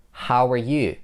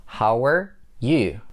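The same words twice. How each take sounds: First: "How are you" linked with a w glide; connected speech. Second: Slow "How are", pause, then "you"; broken-down demo. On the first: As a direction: run "How are you" together, weak are. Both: Shown as a demonstration. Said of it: "In order to connect how and er".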